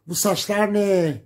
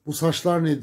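First: High, slow, louder shriek; screaming mother. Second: Higher mock yell, milder; a lighter echo of the mother's shriek; retold shout. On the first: Retold or imitated. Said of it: "diye bağırdı kadın böyle ama nasıl bağırıyor? Çığlık çığlığa". (çığlık çığlığa bağıran anne) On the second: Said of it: "diye bağırdı kadın böyle". (annenin bağırışını hafifçe tekrarlayan)

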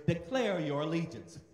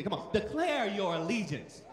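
First: Said in the usual way. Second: Forceful declaration. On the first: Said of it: "you gotta say it, like you mean it". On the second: Shown as a demonstration. Preacher urging congregation to repeat, loud and forceful. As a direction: declare it loud like you mean it. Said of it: "say it like you mean it".

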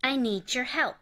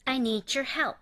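First: Need your said as needjor again; linked ju. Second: Need your said as needjor; linked ju. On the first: Teacher repeating need your linked as needjor. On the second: Teacher modelling need your linked as needjor. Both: Shown as a demonstration. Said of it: "dの後にゆで始まる音".

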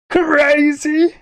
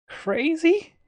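First: Loud high question. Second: High questioning. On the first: Repeating "crazy" louder. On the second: Repeating "crazy" in rising tones. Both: Pretend.

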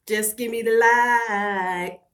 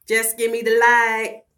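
First: Drawn-out plea. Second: Slow, loud plea. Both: Real, not acted.

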